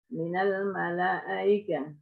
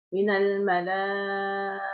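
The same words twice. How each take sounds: First: The vowel before the softened hamza is kept short. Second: The vowel before the softened hamza is held long. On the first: "bitasil ma'al qasr" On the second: "bitasil ma'atul"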